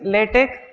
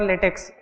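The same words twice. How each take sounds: First: The word ends with a plain 'k' sound. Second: The word ends with a 'ks' sound. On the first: The speaker calls it right. "Pronunciation is LaTeX" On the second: The speaker calls it wrong. "Most of the people pronounce it wrongly"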